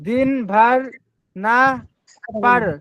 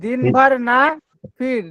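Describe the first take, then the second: First: The last word is said with an 'a' vowel. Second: The last word is said with an 'i' vowel. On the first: The speaker calls it wrong. "ফির রে ফার বলে ফেলেছি" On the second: The speaker calls it right. "এটা ফির"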